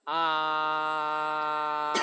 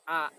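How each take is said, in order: First: The vowel is held out long and steady. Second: The vowel is cut off short and punchy. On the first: "Sekarang kita menggunakan vokal secara panjang" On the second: "vokal secara menghentak"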